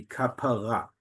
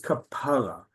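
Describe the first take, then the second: First: "kapara" with the final RA stressed; stress on last syllable. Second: "kapara" with PA stressed, last syllable falling away; stress on penultimate syllable. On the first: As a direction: land the weight on the end of "kapara". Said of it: "the stress is on the last syllable". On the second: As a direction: punch the middle of "kapara". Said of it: "it's on the penultimate syllable". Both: Shown as a demonstration.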